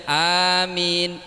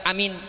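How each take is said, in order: First: "amin" with both syllables drawn out long; "amin", long first vowel, long last vowel. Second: "amin" with both syllables short; "amin", short a and short min. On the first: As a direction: stretch the a and the min of "amin". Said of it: "lanceng-lanceng". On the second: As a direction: say "amin" quickly, no vowel held. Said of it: "Pandek, pandek". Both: Shown as a demonstration.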